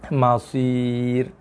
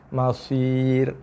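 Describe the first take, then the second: Both takes have the same delivery.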